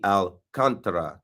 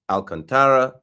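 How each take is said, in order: First: The stress is on the second syllable. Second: The stress is not on the second syllable. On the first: The speaker calls it right. "capital letters for the emphasis" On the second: The speaker calls it wrong. "not Alcantara"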